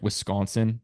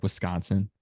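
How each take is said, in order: First: Wisconsin with a rounder O in "con"; usual pronunciation. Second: Wisconsin with a flatter A-like vowel in "con"; own regional pronunciation. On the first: Showing how other people say it, usual pronunciation of Wisconsin. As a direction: say Wisconsin the common way, "Wis-CAWN-sin". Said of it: "People say, like". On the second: Showing his own emphasis on the vowel, regional pronunciation of Wisconsin. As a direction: say Wisconsin his way, "Wis-CAHN-sin". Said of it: "I say, like". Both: Shown as a demonstration.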